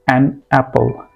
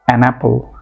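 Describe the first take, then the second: First: The two words are said separately. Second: The n sound links into the next word. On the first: The speaker calls it wrong. "The wrong way is" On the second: The speaker calls it right. "The right way is"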